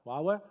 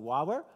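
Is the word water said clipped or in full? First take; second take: clipped; clipped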